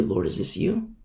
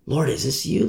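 First: Whispered, higher Lord, is this you; whispered prayer. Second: Softly asking Lord, is this you; a hushed, doubtful question; quiet wondering prayer. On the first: Amos privately asking God, now in a whisper. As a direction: breathe the question to God. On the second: Amos quietly asking God if it's him, hushed. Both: Acted. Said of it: "He might wonder".

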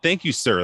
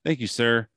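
First: Put-on quoting the kid, a little raised and louder; mimicking the kid's tone. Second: A light put-on voice for the teen's polite thanks; mimicking the kid's tone. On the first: Telling friends how the kid said it, mildly imitated. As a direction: replay how the teen thanked him. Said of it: "like, the tone". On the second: Acting out the teen at the door, lightly put-on voice. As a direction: say it the way the kid did, slightly exaggerated. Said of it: "the way that he said it was just like".

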